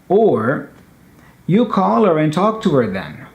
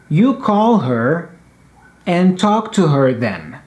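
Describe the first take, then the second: First: Faster and fluid, with the h in her dropped. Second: Slow and deliberate, with the h in her pronounced.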